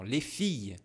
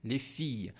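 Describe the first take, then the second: The two takes are said the same way.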